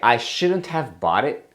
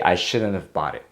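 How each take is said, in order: First: Each word is pronounced fully and clearly. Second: The words are reduced and run together. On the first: "you can say" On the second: "if we're talking with our friends, we might just say"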